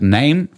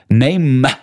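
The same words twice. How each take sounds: First: The word is said plainly as one syllable. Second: The word ends with an extra added syllable. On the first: "anstatt name" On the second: "Es hat eine Silbe mehr"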